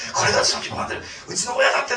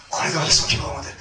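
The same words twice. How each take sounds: First: Mock joyful. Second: Said in the usual way. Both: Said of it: "とかって言ってましたよね".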